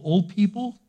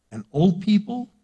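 First: Put-on "old" sung up high, rising; old stressed high. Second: Put-on "old" lifted high and rising; old stressed high. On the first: Preacher sets old against young people, "old" pitched high and rising. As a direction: lift "old" clearly. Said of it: "young people". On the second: Preacher contrasts old with young, "old" pitched high and rising. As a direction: lean up into "old". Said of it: "young people ... old people". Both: Shown as a demonstration.

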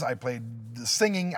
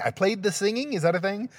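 First: Said in the usual way. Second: High-pitched questioning repeat; puzzled self-query. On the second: Real, not acted. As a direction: repeat it high, doubting your own wording. Questions his own odd wording.

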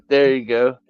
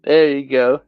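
Both takes have the same delivery.

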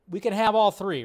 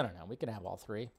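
First: Said in the usual way. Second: Resigned mutter. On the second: Real, not acted. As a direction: lower and much softer, defeated.

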